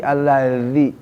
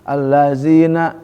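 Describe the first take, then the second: First: Allazi said sloppily, not biting the z; wrong pronunciation. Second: Allazina slow, z bitten with the teeth; correct pronunciation. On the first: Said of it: "bukan allazi". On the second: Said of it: "Harus gigit dong". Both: Shown as a demonstration.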